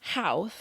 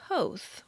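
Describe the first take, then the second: First: The name is said unlike 'Hoth'. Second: The name is said like 'Hoth'. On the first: The speaker calls it wrong. "is not pronounced Houth" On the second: The speaker calls it right. "rather it's pronounced like Hoth"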